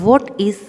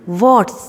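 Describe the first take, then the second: First: Said in the usual way. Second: "What's" as one joined syllable; joined contraction. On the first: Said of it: "जब join करेंगे". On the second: Shown as a demonstration. Teacher showing pupils how to join it, "What's" as one contracted word. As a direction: say "What's" run together, stretched out. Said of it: "तो हम इसे कैसे pronounce करेंगे".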